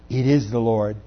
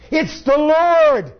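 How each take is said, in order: First: Said in the usual way. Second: Much higher, louder, slow exclamation; excited cry. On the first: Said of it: "and it says". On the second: Acted. Disciple tells Peter he recognizes Jesus, slow excited cry. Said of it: "He said to Peter".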